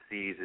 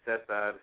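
First: The name is said with a slang pronunciation. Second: The name is said with a Spanish pronunciation. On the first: "how you pronounce it in slang" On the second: "how you pronounce it in Spanish"

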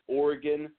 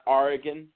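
First: The word is said with an O-like vowel sound. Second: The word is said with an A-like vowel sound. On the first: The speaker calls it right. "it's Oregon" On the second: The speaker calls it wrong. "not Oregon. Oregon has got an O, not an A"

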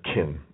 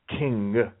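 First: The word ends without the final g sound. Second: The word ends with a clear final g sound. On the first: The speaker calls it wrong. "he said kin" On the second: The speaker calls it right. "It's king"

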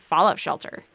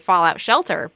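First: The stress falls on the first word. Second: The stress falls on the second word. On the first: It names a bunker against radioactive fallout. "if you're talking about a Fallout Shelter, you say Fallout Shelter" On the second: It names the game. "It's based on the Fallout game series, so when we say it, we say Fallout Shelter"

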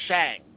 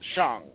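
First: The vowel is a flat, hard A like 'hang'. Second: The vowel is an open, soft A like 'father'. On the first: The speaker calls it wrong. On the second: The speaker calls it right. "it's Shang. All of them are soft A's"

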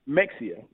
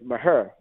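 First: The name has a 'ks' sound in the middle. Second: The name ends in an 'air' sound. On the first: The speaker is not from the area. "if you are somebody that's not from Maher, is Mexia" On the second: The speaker is from the surrounding countryside. "if you're from the country where I consider Mahia to be, we say Maher"

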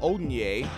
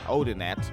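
First: The surname is said in a French-sounding way. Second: The surname is said in an American way. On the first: "Probably French" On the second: "Say your name the American way"

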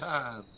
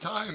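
First: It is said in a Southern US accent. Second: It is said in a General American accent. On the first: "They say time" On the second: "They don't say time down here"

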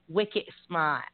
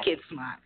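First: It is said in a strong Massachusetts accent. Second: It is said in a neutral, standard accent. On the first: "But they say it like"

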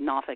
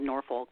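First: The name is said with a local pronunciation. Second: The name is said with a non-local pronunciation. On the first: The speaker is from the area. "I say Norfolk" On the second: The speaker is not from the area. "instead of Norfolk"

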